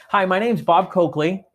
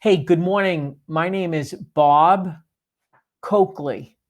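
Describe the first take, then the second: First: Name run together fast, no pause between "Bob" and "Coakley"; the wrong way, meshed together; rushed name. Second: Slow, with a clear pause between "Bob" and "Coakley"; the right way, name spaced out; deliberate pause. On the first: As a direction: blur "Bob Coakley" into one quick word. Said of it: "don't come across like this". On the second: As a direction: say "Bob", stop, then "Coakley". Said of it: "just be super deliberate". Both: Shown as a demonstration.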